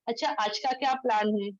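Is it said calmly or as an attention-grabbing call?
calmly. It is asked calmly, as if standing close.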